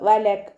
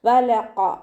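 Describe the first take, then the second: First: The q sound is light and thin. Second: The q sound is heavy and deep. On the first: The speaker calls it wrong. "അതുപോലെ ആവരുത്" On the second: The speaker calls it right. "Heavy ആക്കി കൊടുക്കുക"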